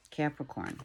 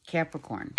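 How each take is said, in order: First: Much softer, hushed repeat; soft echo. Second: Said in the usual way. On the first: Shown as a demonstration. Reader echoes the sign name, softly hushed. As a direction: let it fall away like an echo. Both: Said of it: "sign name repeated, echoed".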